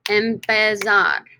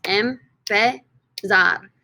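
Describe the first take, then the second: First: Said in the usual way. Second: "Empezar" in three slow, separate syllables. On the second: Shown as a demonstration. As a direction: break "Empezar" into em, pe, zar with pauses. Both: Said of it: "three syllables".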